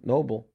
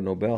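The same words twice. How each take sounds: First: Nobel like the word "noble"; Nobel said NOH-bul. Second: Nobel with the stress on BELL. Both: Shown as a demonstration. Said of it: "however you wanna pr".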